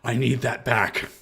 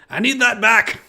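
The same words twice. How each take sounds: First: It is said in a gruff, Batman-like voice. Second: It is said in a different, non-Batman voice. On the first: The speaker calls it wrong. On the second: The speaker calls it right.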